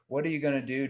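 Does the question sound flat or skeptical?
flat. The question is asked in a flat, plain tone. The speaker calls it wrong. "you have to have the right tone out"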